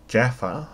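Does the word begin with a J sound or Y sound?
J sound. It begins with an English J sound.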